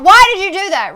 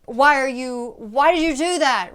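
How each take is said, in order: First: Shrill scream, much higher and louder; the wrong way: yelling it out; screamed version. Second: Tense, held-back anger, strong but not screamed; furious but keeping it down in a restaurant; an angry demo kept under control; contained anger. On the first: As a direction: let it blow up into a full scream. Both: Shown as a demonstration. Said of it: "But it's not".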